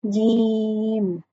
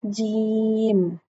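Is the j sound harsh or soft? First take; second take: soft; soft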